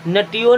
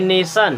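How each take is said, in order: First: The middle letters are read as 'tee-oh'. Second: The middle letters are read as 'sh'. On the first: The speaker calls it wrong. "नटियोन नहीं पढ़ेंगे" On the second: The speaker calls it right. "उसे भी पढ़ते हैं सा"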